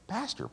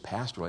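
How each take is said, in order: First: The word is said with heavy, drawn-out weight. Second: The word is said plainly, without extra weight. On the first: He is a special, real pastor. "We emphasize one word. ... It's pastor" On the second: He is an ordinary pastor. "It isn't just pastor"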